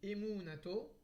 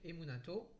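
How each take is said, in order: First: The middle syllable is drawn out slowly. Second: The whole word flows evenly in one go. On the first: "on peut ralentir un peu sur mou de emunato" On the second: "on peut le dire d'un seul trait"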